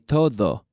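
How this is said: The final D is made with the tongue between the teeth. The speaker calls it right. "your tongue comes out between your teeth and touches your teeth"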